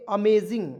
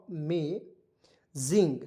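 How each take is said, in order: First: Said in the usual way. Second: Slow drawn-out model word. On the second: Shown as a demonstration. Teacher models amazing for the class, slow and drawn out. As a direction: stretch amazing out slowly, every sound clear. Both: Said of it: "इसे क्या पढ़ेंगे दोस्तों?".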